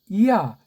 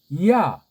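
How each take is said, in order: First: The vowels are split into two syllables. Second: The same.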